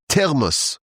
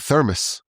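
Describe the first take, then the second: First: The word has a Hebrew-style pronunciation. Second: The word has an ordinary English pronunciation.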